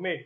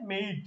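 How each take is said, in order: First: মেড with one short e vowel; wrong pronunciation. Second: মেড said as "meid", gliding e to i; actual pronunciation. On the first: Teacher warns students of the mistake, short-vowel মেড. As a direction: say মেড without any i-glide. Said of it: "তাইলে তুমি ভুল করবা". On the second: Teacher corrects the students, মেড as gliding "meid". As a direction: draw out the ei glide in মেড. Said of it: "এটার actual উচ্চারণ হচ্ছে". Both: Shown as a demonstration.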